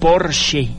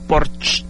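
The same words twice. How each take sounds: First: The final vowel is pronounced at the end. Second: The final vowel is dropped at the end. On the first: The speaker calls it right. "en alemán generalmente se pronuncian todas las vocales. El automóvil es Porsche" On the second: The speaker calls it wrong. "no Porsche"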